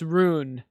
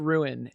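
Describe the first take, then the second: First: The word is said with one syllable. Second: The word is said with two syllables. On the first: The speaker calls it right. "it's rune" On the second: The speaker calls it wrong. "I pronounce it ruin, and that is wrong"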